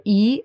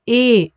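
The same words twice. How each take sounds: First: Said in the usual way. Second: "E" said as German "eh"; name the letter "E" the German way, like "ay" without the glide; pure long "eh" for "E". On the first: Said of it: "The letter E is called E in German". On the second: Shown as a demonstration. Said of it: "is called E in German".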